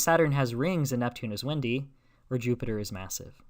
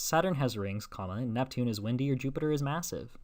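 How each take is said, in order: First: "Saturn has rings and Neptune is windy" as one group, then a break before "or Jupiter is massive"; pause after windy. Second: A clear break after "rings", then "and Neptune is windy or Jupiter is massive" read as one group; pause after rings. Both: Shown as a demonstration. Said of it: "So compare these two sentences".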